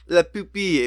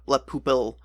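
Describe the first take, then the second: First: The last syllable ends with an 'ee' sound. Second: The last syllable ends with an 'ill' sound. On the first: The speaker calls it right. "the I L L E is like the E" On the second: The speaker calls it wrong. "you don't say ill. It's it's not"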